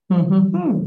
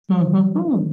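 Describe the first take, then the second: No difference in how they are said.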